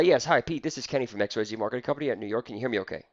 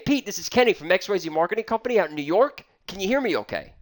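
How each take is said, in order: First: Rushed, softer and lower, swallowing the words; the salesman shows the wrong way to open a cold call, a timid quick mumble. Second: Said in the usual way. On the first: Shown as a demonstration. Sales trainer demos a weak opener to Pete, rushed and soft. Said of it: "I'm not saying it like that". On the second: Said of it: "I'm saying".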